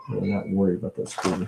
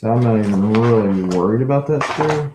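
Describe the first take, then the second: First: Much softer, fast, to himself; quick quiet aside; quiet fast mutter. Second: Said in the usual way. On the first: Shown as a demonstration.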